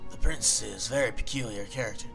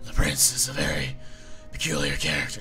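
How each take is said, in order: First: It is spoken in a Southern accent. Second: It is spoken in a gravelly, growling voice. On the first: "No, that's the southern" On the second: "I'm giving him like a smoker voice. ... No, that's Batman"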